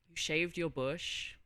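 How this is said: It sounds let down and disappointed.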